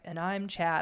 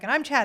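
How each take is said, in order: First: It is said slowly. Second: It is said fast.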